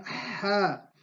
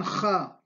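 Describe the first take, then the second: First: Ja with a pharyngeal, breathed ḥ; correct Arabic ḥ. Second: Ja with a scraped Spanish jota; mispronounced as J. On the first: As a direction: draw out Ja from the throat, no jota scrape. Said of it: "pero en Ja". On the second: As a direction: imitate the learners' error, a rasped kh in Ja. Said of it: "lo pronuncian Ja". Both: Shown as a demonstration.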